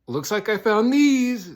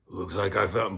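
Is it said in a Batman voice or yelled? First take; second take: yelled; Batman voice. First: It is yelled loudly in his normal voice. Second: It is said in a low, gravelly Batman voice.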